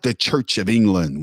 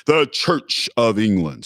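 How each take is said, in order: First: Said in the usual way. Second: "The Church of England" drawn out slowly, higher; grand emphasis. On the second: Real, not acted. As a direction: announce "The Church of England" slowly, each word weighted. Slow emphatic repeat of the name.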